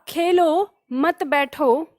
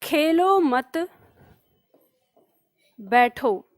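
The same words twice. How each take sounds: First: "Khelo", a short pause, then "मत बैठो" together; slow, break right after "खेलो". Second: "खेलो मत" together, long pause, then "बैठो"; pause after मत. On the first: Teacher shows the comma's place, pause after "Khelo". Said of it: "यहाँ पे मैंने अल्प विराम लगाया". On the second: Teacher dictates example sentence, pause after "मत". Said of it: "के बाद विराम लगा दिया". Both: Shown as a demonstration.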